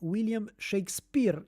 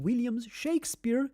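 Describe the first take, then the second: First: The stress falls on the last syllable. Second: The name keeps its usual English stress.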